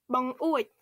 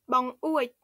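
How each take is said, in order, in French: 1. Le mot se prononce avec deux syllabes. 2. Le mot se prononce avec deux syllabes.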